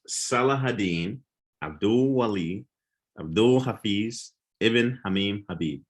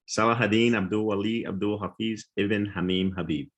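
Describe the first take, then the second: First: The name is said at a slow pace. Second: The name is said at a fast pace.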